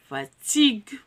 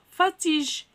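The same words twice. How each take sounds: First: The g is a hard g sound. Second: The g is a soft j sound. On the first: The speaker calls it right. "le U m'a aidé à donner le son comme fatigue" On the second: The speaker calls it wrong. "Si je supprime le U, je dois lire fatigue. Et ça, c'est faux"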